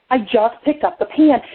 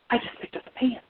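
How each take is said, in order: First: Said in the usual way. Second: Hushed, unvoiced whisper of dawning realization. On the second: Storyteller realizing the pan was lifted, whispering. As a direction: whisper it in stunned discovery.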